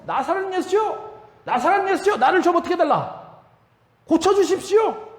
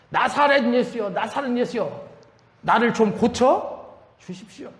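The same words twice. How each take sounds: First: Bartimaeus shouting louder. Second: Higher-pitched pleading call, not fully shouted; restrained re-enactment of a street cry; mock crying out. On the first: Retold or imitated. Blind beggar cries out even harder to Jesus, high pleading shout. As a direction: re-enact an insistent shout, pitched way up. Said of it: "더 크게 소리를 지르죠". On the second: Blind beggar calls to Jesus from the roadside, mild mock yell. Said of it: "고함을 지릅니다".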